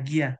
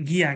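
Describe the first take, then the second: The two takes are said the same way.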